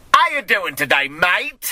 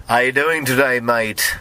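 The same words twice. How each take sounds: First: Higher, broad South London British; amateur British accent, pitched up on a cheeky question; attempted British accent. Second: More restrained British accent, princely; toned-down British accent, second attempt; different British accent. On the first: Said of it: "I can do a very good British accent". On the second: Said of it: "I'll try a different version". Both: Shown as a demonstration.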